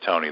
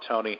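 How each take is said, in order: First: The name is said in a grave, serious tone. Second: The name is said in a light, playful tone. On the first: The talk has turned to serious business. "voice inflection changes, and suddenly it's serious" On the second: The talk is still a friendly warm-up. "have fun, Tony, let's get in here, warm up"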